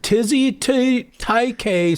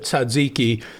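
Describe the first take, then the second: First: It is said as two odd words, tizzy taike. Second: It is said as the usual word tzatziki. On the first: The speaker calls it wrong. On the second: The speaker calls it right.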